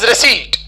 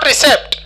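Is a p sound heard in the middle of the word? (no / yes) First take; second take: no; yes. First: No p sound is heard before the final t. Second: A p sound is heard before the final t. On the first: The speaker calls it right. "this is receipt" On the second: The speaker calls it wrong. "this is not recept"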